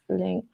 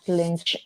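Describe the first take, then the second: First: The name ends with a 'k' sound. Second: The name ends with a 'ch' sound. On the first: The speaker calls it right. "pronounce link" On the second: The speaker calls it wrong. "not lynch"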